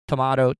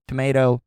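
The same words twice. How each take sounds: First: "tomato" said tuh-MAH-toh. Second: "tomato" said tuh-MAY-toh. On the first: Host listing ways to say it, "tomato" as to-MAH-to. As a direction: say "tomato" with an AH in the middle. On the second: Host listing ways to say it, "tomato" as to-MAY-to. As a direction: say "tomato" with an AY in the middle. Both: Shown as a demonstration. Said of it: "whatever way you say it".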